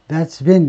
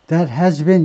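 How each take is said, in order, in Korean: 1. 'has' 단어는 's로 줄여서 말합니다. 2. 'has' 단어는 완전히 말합니다. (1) "이렇게 줄여서 읽어야 돼요" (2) "이렇게 하면 안 됩니다"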